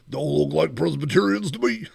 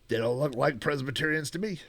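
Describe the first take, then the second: First: It is said in Doctor Teeth's voice. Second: It is said in Fozzie's voice.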